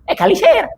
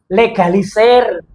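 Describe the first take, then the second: First: The word begins with a vowel, no L. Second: The word begins with an L sound. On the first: The speaker calls it wrong. "enggak egalisir" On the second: The speaker calls it right. "legalisir pakai L depannya"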